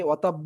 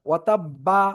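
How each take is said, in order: First: The final b is followed by a 'u' vowel. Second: The final b is followed by an 'a' vowel. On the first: "এরকম না" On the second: "এরকম না"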